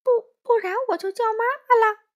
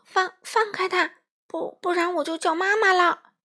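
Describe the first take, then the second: First: High, loud, fast mimicry; mocking imitation. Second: High, stuttering threat; stammering shout. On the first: Wolf mimicking the scared little one, mocking stammer. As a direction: ape the stammering kid mockingly. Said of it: "帅狼学着他的腔调说". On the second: Small friend threatening to call mum, stammering shout. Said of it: "欢仔结结巴巴地喊道". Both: A narrator's reading.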